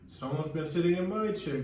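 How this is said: It is said with a breathy gasp.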